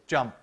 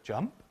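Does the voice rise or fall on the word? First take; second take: fall; rise. First: The pitch falls on the word. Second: The pitch rises on the word. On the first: It is a command. The speaker calls it right. "You've got to say jump. You've got to have a fall" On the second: It is a question. The speaker calls it wrong. "you can't go up with it and jump. Okay, that would be a question"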